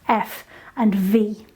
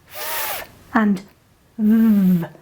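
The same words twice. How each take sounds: First: Each consonant is said with a vowel sound. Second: Each consonant is said alone without a vowel. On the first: These are the names of the letters. "those are the names of the letters that we use in English" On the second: These are the sounds the letters make. "The sounds those letters make are"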